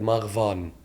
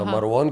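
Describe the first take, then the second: First: The name is said with a 'v' sound. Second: The name is said with a 'w' sound.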